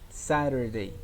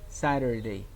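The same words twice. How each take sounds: The two takes are said the same way.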